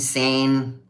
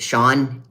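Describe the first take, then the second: First: The name is said with an 'ay' vowel. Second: The name is said with an 'aw' vowel. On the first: The speaker calls it wrong. "all kinds of weird ways" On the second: The speaker calls it right. "my name is Sean"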